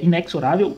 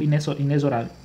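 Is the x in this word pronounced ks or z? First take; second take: ks; z. First: The x is pronounced as ks. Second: The x is pronounced as z. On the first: "com K S" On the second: "ou com Z"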